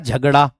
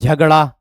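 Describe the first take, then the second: First: The word ends in a long 'aa' vowel. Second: The same.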